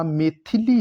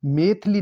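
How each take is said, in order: First: Said in the usual way. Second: मैथिली cut to two syllables, "maith-li"; mispronounced मैथिली. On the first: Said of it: "मैथिली होता है". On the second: Shown as a demonstration. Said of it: "मैथिली नहीं होता".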